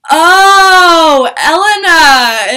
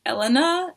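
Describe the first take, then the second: First: Loud, high, drawn-out cry of recognition; excited recognition. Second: Imitating a hesitant self-introduction; tentative name-giving. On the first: Retold or imitated. Singer recognizes her fan, excited loud cry. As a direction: stretch the name out in a delighted yell. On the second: Fan tells singer her name, tentative and higher. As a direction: give the name timidly, pitched up.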